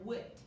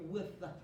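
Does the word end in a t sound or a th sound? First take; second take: t sound; th sound. First: The word ends with a t sound. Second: The word ends with a clear th sound. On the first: The speaker calls it wrong. "I don't want to hear wit" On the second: The speaker calls it right. "I need to hear with"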